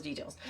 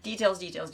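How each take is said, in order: First: Trailing off much softer and lower; fading bored mutter. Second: Mock bored viewer. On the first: Pretend. The host mimicking a bored viewer, trailing off softly. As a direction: let the last details die away. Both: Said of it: "you're like".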